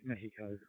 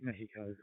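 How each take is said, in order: First: The name is pronounced with a Spanish accent. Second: The name is pronounced with a Spanish accent.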